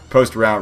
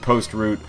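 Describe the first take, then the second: First: Route is said with an American pronunciation. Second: Route is said with a British pronunciation. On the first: The speaker calls it right. "rather, ... we are in America here" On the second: The speaker calls it wrong. "I used the British pronunciation of the word route"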